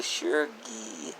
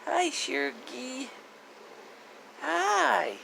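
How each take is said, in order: First: Said in the usual way. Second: Much higher cooing greeting; high pet talk. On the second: Real, not acted. Owner saying hi to her dog, high cooing pet voice. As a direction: lift it up into a sweet pet voice.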